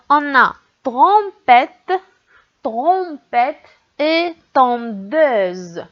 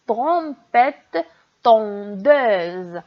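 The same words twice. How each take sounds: First: Trompette and tondeuse, slowly stretched; slow demo words. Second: Said in the usual way. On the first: Shown as a demonstration. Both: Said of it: "on entend tr dans le premier mot".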